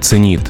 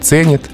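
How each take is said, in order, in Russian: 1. Ударение на втором слоге. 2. Ударение на первом слоге. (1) "Когда-то было" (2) "стало"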